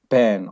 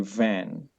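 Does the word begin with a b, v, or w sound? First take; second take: b sound; v sound. First: The word begins with a b sound. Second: The word begins with a v sound. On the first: The speaker calls it wrong. "some people they use the sound of ba" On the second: The speaker calls it right. "But in English, people they say van"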